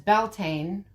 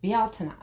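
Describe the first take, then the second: First: The name is said with an English pronunciation. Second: The name is said with a Gaelic pronunciation. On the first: The speaker calls it wrong. "always said as Beltane when it's not" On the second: The speaker calls it right. "It's actually pronounced Bealtaine"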